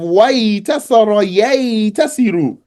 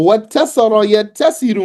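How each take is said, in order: First: A y sound comes before the t. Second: A doubled t sound is used. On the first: The speaker calls it wrong. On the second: The speaker calls it right.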